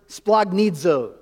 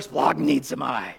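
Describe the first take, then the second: First: Said in the usual way. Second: Low, slow guttural utterance. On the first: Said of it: "You say it, you gotta say it down". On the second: Shown as a demonstration. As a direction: drop it deep down and make it guttural. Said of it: "kind of a guttural word".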